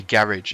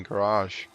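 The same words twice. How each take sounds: First: "garage" said GARR-idge, stress up front, hard -idge ending; British "garage", GARR-idge; UK pronunciation. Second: "garage" with the French-style RAHZH ending; one way of saying garage. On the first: Correcting himself for UK viewers, "garage" as GARR-idge. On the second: Naming the garage first, "garage" as gah-RAHZH. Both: Shown as a demonstration. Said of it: "if you're from the U K".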